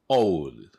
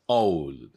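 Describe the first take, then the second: Both takes have the same delivery.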